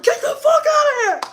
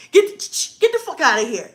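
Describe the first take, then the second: First: Full-force retold furious shout; big boy voice. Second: Loud, raised acted order; imagined husband's warning. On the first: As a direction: roar it like the daddy of the house. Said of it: "put on my big boy drawers". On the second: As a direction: act out running someone off. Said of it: "That would be a shotgun moment".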